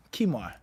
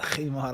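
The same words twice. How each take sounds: First: "khimar" starting on a k, no throat friction; khimar with plain k. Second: "khimar" opening on a rasped back-of-throat fricative; khimar with a kha. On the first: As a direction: say "khimar" as KEE-mar, with a hard English k. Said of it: "Some may say with a kha, but in general". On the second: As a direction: say "khimar" with a throaty Arabic kh at the start. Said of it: "Some may say with a kha". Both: Shown as a demonstration.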